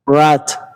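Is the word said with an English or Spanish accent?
English. The R is a soft English approximant. The speaker calls it right. "But in English, it is rat"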